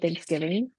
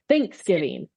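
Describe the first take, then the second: First: The stress is on the second syllable. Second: The stress is on the first syllable.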